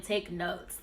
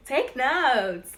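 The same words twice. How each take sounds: First: Said in the usual way. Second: Laugh, then hammer home "take notes"; insistent. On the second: Real, not acted. Host urging viewers to get notebooks out, insistent. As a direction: TAKE NOTES louder and higher, drawn out. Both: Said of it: "no, I'm serious".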